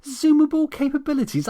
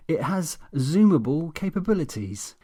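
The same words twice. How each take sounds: First: High, loud mocking echo; indignant mocking repeat; incredulous mockery. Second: Smug, self-satisfied boast; pleased-with-himself official tone. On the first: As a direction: throw his words back in disbelief. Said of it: "I snapped". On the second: Acted. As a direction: say it with a smug grin. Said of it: "with an intensely smug grin".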